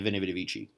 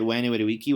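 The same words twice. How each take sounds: First: The words begin with a v sound. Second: The words begin with a w sound. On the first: The speaker calls it wrong. "They pronounce it like it's Italian" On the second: The speaker calls it right. "more correct ancient Roman pronunciation"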